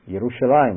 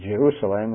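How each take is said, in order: First: The word begins with a Y sound. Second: The word begins with a J sound. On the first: This is the old, original pronunciation. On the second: This is the later, changed pronunciation. "not Jerusalem"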